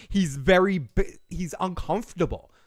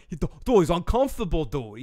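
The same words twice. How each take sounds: First: Slight Boston accent slipping out; Boston accent coming through. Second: Said in the usual way. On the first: Real, not acted. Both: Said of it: "my Boston accent came out there".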